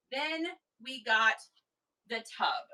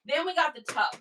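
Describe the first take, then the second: First: Slow, deliberate reveal. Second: Higher-pitched, lively reveal; upbeat announcement. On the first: Seller presenting the tub a second time, slow deliberate reveal. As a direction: pause after "got" before "the tub". Repeats the announcement with pauses. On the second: Seller introducing the next item, lively announcement. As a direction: announce it in one quick go. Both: Real, not acted.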